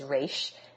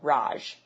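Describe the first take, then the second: First: The name ends with a sh sound. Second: The name ends with a j sound. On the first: "later she says Raish" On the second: "like with a J"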